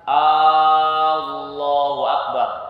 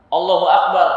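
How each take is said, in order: First: The first vowel of Allahu is drawn out long. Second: The first vowel of Allahu is kept short. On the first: It asks whether God is great. The speaker calls it wrong. "A-nya dipanjangin. Ini keliru dan mempengaruhi arti" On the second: It states that God is great. The speaker calls it right. "arti yang benar, Allah Maha Besar"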